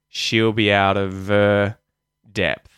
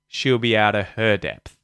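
First: The H is dropped and 'of' keeps its V. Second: The H is pronounced and 'of' loses its V. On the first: "We'll drop the H's, and so the V sound will appear" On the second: "if we had the H's there, we wouldn't use the V sound"

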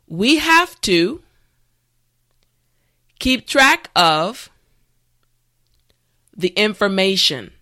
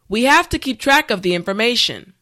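First: The sentence is said slowly and carefully. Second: The sentence is said at a natural speed. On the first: "this time repeat after me" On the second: "the last time at a regular pace"

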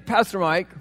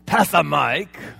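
First: It is pronounced the normal adult way. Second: It is pronounced the way a small child would.

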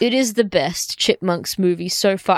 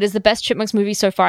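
First: It is read at a normal pace. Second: It is rushed together in one breath.

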